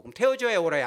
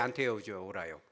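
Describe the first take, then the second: First: First choice of two, 태워줘야 punched loud; stress on 태워줘야. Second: 안 태워줘야 said low and soft, falling; second choice of two, 안 태워줘야 said lower; stress on 안 태워줘야. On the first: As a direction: hit 태워줘야 hard as an open question. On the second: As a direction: drop the voice on 안 태워줘야. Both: Shown as a demonstration.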